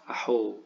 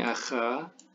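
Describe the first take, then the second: First: The middle consonant is a breathy throaty h. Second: The middle consonant is a scraping kh sound.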